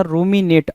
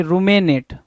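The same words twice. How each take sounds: First: रूमिनेट with a clear i after m, ru-mi-net; correct pronunciation. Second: रूमेनेट with an e sound in the middle, ru-me-net; wrong pronunciation. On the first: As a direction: give the right रूमिनेट, i sound in the middle. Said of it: "बोलना क्या चाह रहा था". (सही उच्चारण, बीच में 'इ': रूमिनेट) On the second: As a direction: say रूमेनेट the student's wrong way, with e after m. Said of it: "रूमेनेट बोल दिया". (गलत उच्चारण, बीच में 'ए': रूमेनेट) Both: Shown as a demonstration.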